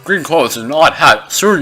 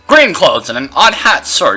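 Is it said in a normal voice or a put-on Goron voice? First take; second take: Goron voice; normal. First: It is read in a put-on Goron voice. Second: It is read in his normal voice.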